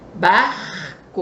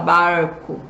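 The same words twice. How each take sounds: First: The R scrapes in the throat. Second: The R is drawn out, country style. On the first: The speaker is from Rio de Janeiro. "O carioca, ele puxa, arranha a garganta" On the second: The speaker is from inland São Paulo. "ele já fala barco, né? Ele puxa"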